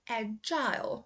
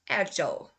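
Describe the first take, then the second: First: The last syllable rhymes with 'aisle'. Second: The last syllable is a weak 'ul' sound. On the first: "in U K, they say I" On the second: "U S, it's uh"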